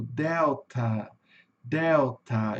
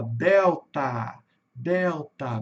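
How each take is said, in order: First: Delta with a weak, reduced final A; English delta. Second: Delta with a wide-open final A; open-ended delta; Portuguese delta. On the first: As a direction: let the end of delta fade to a schwa. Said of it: "mais fraquinho". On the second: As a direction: say delta the Brazilian way, open end. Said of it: "bem aberto esse final". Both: Shown as a demonstration.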